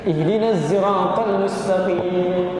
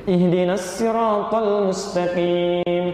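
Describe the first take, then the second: First: Sirat begins with a z-like sound. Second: Sirat begins with a plain, light s sound. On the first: The speaker calls it right. "yang benar pakai zai" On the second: The speaker calls it wrong. "pakai sin hasbuk"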